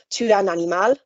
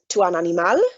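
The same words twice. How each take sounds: First: The voice stays level or falls at the end. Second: The voice rises at the end. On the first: It is a statement. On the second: It is a question.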